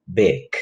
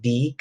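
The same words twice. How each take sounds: First: Big with a short, lax English I. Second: Big with a Spanish I, like "beeg"; Spanish-style I in big. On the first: Teacher modelling phonetics for students, big with short I. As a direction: say big with a short vowel, toward "beg". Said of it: "sino que es una I corta". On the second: Teacher showing students the mistake, big with Spanish I. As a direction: say big with a long, tense "ee" vowel. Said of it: "la pronunciación no es big, como la I del español". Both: Shown as a demonstration.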